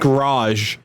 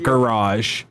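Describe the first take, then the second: First: The word is squeezed into one syllable. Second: The word is said with two syllables. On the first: This is how the singer says it. "pronounces garage as a single syllable" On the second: This is how the singer does not say it. "and not"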